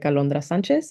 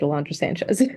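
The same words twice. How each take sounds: First: The name is said with Spanish sounds. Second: The name is said with English sounds. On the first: "if they know how to speak Spanish, they can say it like" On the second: "Otherwise, please just say it"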